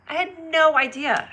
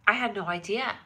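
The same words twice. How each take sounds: First: Louder and higher, stress on no; stunned. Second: Said in the usual way. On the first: Real, not acted. Streamer amazed she missed the news, higher and louder. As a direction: burst out with amazement on no. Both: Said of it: "repeated louder".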